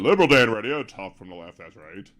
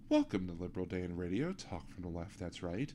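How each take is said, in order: First: It is said loudly, with a raised voice. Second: It is said in a calm NPR-style voice.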